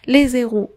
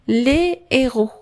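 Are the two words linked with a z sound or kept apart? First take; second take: linked; apart. First: A z sound links the two words together. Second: The words are kept apart with no z sound. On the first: It means the zeros. The speaker calls it wrong. "ما تترجعش les zéros ... كنبدل كاع لو سونس ديال الكلمه" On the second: It means the heroes. The speaker calls it right. "فاش نردها البلوريال تترجع les héros"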